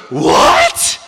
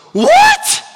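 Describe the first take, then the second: First: Loud mock-shocked cry; Haman's shocked outburst. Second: Very high, loud yelp of disbelief; king's shocked outburst. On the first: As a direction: blurt it loudly as an aghast question. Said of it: "And Haman goes". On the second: Acted. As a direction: shriek it as a stunned question. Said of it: "The king goes".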